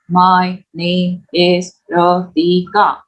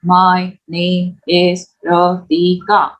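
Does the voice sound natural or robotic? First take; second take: robotic; robotic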